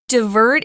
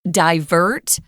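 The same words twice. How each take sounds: First: It uses the more widespread, common pronunciation. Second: It uses the pronunciation heard mostly in Britain. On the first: "Divert is used more frequently" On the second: "there is another pronunciation for this word. It's used mostly in the U K"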